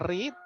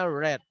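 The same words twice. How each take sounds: First: The word is said with a long 'ee' vowel. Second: The word is said with a short 'e' vowel. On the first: It is the present form of the verb. "Kalau verb pertama itu biasanya bacanya read" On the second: It is the past form of the verb. "kalau sudah masuk bentuk kedua, verb kedua, dia dibacanya read"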